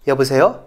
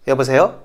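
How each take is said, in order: No difference in how they are said.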